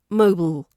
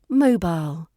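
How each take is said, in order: First: It sounds almost like one syllable. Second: It has two clear syllables. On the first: "In America it's almost one" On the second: "In British English there's two syllables to mobile"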